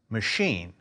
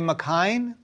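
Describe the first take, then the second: First: It begins with a weak 'muh' sound. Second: It begins with a clear 'mack' sound. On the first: The speaker calls it right. "M-A-C-H-I-N-E spells machine" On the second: The speaker calls it wrong. "Did you say McHine? If so, think about it again"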